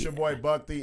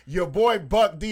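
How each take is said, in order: First: It is said in an ordinary conversational voice. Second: It is said in a put-on radio announcer voice.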